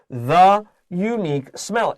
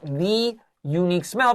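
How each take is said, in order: First: The word 'the' is said with a weak 'thuh'. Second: The word 'the' is said as a full 'thee'. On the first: The speaker calls it right. "Listen to how I say this" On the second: The speaker calls it wrong. "It's not the unique smell"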